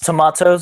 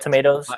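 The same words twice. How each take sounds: First: It is said in a British accent. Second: It is said in an American accent.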